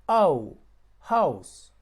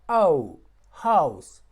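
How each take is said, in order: The two takes are said the same way.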